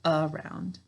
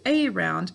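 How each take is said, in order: First: It is said smoothly as one ordinary word. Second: It is said carefully, part by part, for spelling. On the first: This is how it is said in everyday talk. "when we're speaking, what do we say? Good, around" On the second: This is how it is said to help spell it. "to spell it, we say a round"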